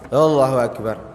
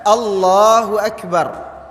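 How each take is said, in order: First: The sounds are slurred and unclear. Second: Each sound is articulated clearly and precisely. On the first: The speaker calls it wrong. "Ini takbirnya salah" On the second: The speaker calls it right. "Harus jelas"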